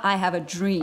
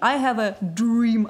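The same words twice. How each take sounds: First: Dream starts with a j-like sound. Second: Dream starts with a plain d sound. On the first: The speaker calls it right. "тут получается G. прямо как в слове джинсы" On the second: The speaker calls it wrong. "говорил не I have a dream"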